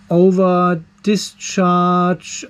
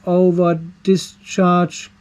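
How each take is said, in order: Both takes have the same delivery.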